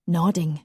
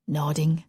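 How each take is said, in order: Both takes have the same delivery.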